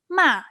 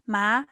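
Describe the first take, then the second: First: The syllable is said with the fourth tone. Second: The syllable is said with the second tone. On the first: The word means scold. "The fourth tone ma it means scold" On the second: The word means numb. "ma it means numb"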